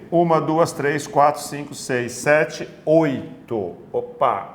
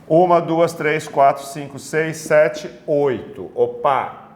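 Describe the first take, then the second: No difference in how they are said.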